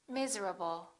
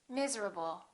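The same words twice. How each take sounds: The two takes are said the same way.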